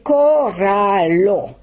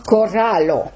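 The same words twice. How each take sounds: First: Coralo with a French uvular R, slowly; French R demo. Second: Coralo with a rolled Esperanto R; Esperanto R demo. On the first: Teacher shows the wrong French R in coralo. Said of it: "Si je prononce le R français". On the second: Teacher shows the correct Esperanto R in coralo. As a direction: say coralo with a tapped tongue R, slowly. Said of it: "On doit éviter ce R français". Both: Shown as a demonstration.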